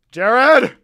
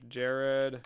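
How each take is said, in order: First: High, very loud name call; explosive, high-pitched yell; sudden shout. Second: Said in the usual way. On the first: Pretend. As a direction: holler the name out.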